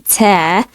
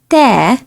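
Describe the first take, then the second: First: The t has an airy, whistling puff after it. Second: The t has no airy puff after it. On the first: The speaker calls it wrong. "You don't say ta, just like the T in English" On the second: The speaker calls it right. "Next one is ta"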